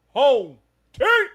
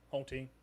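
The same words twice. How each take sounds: First: It is said with loud, hyped energy. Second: It is said plainly, without energy.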